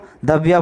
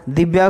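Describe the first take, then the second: First: The first vowel is an a sound. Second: The first vowel is an i sound. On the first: The speaker calls it wrong. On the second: The speaker calls it right.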